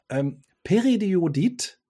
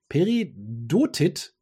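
First: "Periodit" said slowly with the syllables mixed up; mispronounced word. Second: "Peridotit" said slowly and carefully, pe-ri-do-tit; corrected pronunciation. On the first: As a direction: stumble over "Periodit", syllables swapped. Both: Real, not acted. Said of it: "nee, Peridotit".

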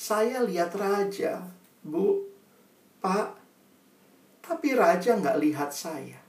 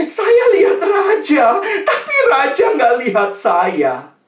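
First: Slow, much softer repeat with pauses; subdued sorrow. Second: Slow, high, loud wail; mock sobbing child. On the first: Acted. Pupil tells Bu and Pak her hurt, subdued sorrow. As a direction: let the hurt land quietly. Child's line repeated softly for effect. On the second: Pupil reveals why she weeps, loud mock wailing. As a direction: bawl it out like a heartbroken child. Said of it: "dia nangis terseduh-seduh".

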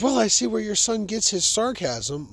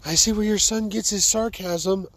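First: Higher, louder "Well, I see where your son gets his sarcasm"; lightly voiced teacher; teacher's remark. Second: Higher, louder lightly voiced teacher; teacher quoted. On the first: Teacher to parent at conference, lightly voiced higher. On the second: Teacher to parent, quoted for emphasis, higher. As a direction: repeat the teacher's line pointedly. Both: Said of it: "she says".

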